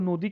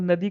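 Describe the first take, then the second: First: The first vowel sounds like 'o' in Bengali style. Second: The first vowel sounds like 'a' in standard Hindi.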